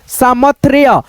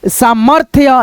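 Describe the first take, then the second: First: The r sound comes after the th sound. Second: The r sound comes before the th sound. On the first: The speaker calls it wrong. "तो ये गलत उच्चारण हुआ आपका" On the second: The speaker calls it right. "रेफ की मात्रा दोनों से पहले आएगा उच्चारण"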